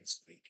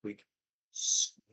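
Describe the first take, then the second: First: Says squeak, no real squeak; flat spoken squeak; deadpan squeak. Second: Squeak. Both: Retold or imitated. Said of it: "instead of actually squeaking".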